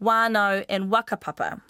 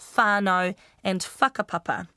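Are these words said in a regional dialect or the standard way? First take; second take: regional; standard. First: The words are said in a regional dialect. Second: The words are said the standard way. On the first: "that's just my local dialect from Whanganui" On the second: "normally said as"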